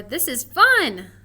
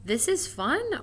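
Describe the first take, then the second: First: Slow and much louder; excited. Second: Said in the usual way. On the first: Shown as a demonstration. Teacher offering the excited way to say it, louder. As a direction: say it like you mean it. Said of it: "Which way do we think". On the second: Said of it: "would we say it".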